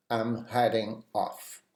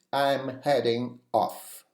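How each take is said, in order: First: Said in the usual way. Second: "I'm heading off" said slowly, "I'm" stressed; slow, clear demo. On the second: Shown as a demonstration. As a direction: spell it out slowly for learners. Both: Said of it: "You can also say".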